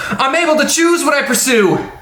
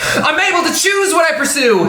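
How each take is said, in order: First: A cartoony, swaggering put-on voice. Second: A put-on anime character voice. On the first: "Try cartoony and swaggy" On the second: "Try anime character"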